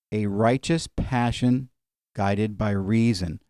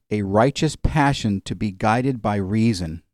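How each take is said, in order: First: "A righteous passion guided by reason" drawn out slowly and softer, each word weighed; preacher spells it out slowly and softer for the congregation to note down; slow, deliberate repeat. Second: Said in the usual way. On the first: Shown as a demonstration. Pastor repeats the definition for the congregation, slow and deliberate.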